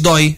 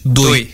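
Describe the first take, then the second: First: The o vowel is said open. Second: The o vowel is said closed. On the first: This is the common way most people say it. "Ela não diz dói" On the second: This is how people from one region say it. "os Os é O. ... diz doi"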